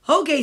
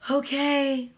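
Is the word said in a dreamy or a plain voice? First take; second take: plain; dreamy. First: It is said in a plain, ordinary voice. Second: It is said in a soft, dreamy voice. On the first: The speaker calls it wrong. "let me try that one again" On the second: The speaker calls it right. "he read it in a dreamy voice"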